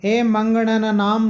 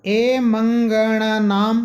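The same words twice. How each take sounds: First: मंगणानाम recited slowly with short अ after ग; corrected short vowel. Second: मंगणानाम drawn out slowly, long आ after ग; mistaken long vowel. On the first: Teacher correcting the sutra reading, मंगणानाम with short ग. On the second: Teacher reading out a sutra, मंगणानाम slowly with mistaken long आ. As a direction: chant मंगणानाम very slowly, lengthening ग to गा. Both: Shown as a demonstration. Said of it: "ये यहाँ पर आ की मात्रा नहीं है".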